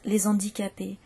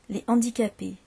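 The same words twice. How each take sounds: First: A z sound links the two words. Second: The s is silent, with no link. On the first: The speaker calls it wrong. "ça n'est pas considéré comme correct" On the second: The speaker calls it right. "on ne fait jamais la liaison avec"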